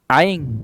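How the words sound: Said in a Terengganu dialect accent. "kalau orang Terengganu sebut air"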